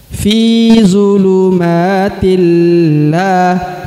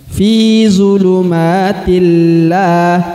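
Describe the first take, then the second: Both takes have the same delivery.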